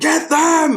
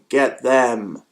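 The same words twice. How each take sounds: First: It is said loudly with great energy. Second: It is said flatly with no energy.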